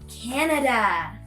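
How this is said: It is said in an American accent. "Americans will say Canada"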